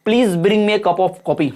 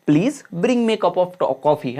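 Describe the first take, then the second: First: Said in the usual way. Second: "Please bring me a cup of coffee" as a gentle request, pitch dropping on "coffee"; falling intonation. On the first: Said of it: "चिल्ला के तो नहीं बोलेंगे". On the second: Shown as a demonstration. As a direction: let the tone fall away on "coffee", no shouting. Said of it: "वो गिरता हुआ". ("coffee" पर गिरता हुआ स्वर, बिना चिल्लाए)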